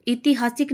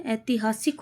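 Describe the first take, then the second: First: ऐतिहासिक opening on short i; wrong form. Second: ऐतिहासिक opening on ai; softer, settled ऐतिहासिक with initial ai; correct form. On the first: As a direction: say ऐतिहासिक as i-ti-haa-sik. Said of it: "नहीं होता है". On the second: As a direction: say ऐतिहासिक as ai-ti-haa-sik. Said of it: "बड़ी ए आएगी". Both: Shown as a demonstration.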